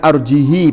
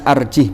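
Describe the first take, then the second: First: The final h takes a lengthened i vowel. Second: The final h has no vowel after it. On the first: "bi kasril ha ma'asilatiha" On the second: "bi iskanil ha"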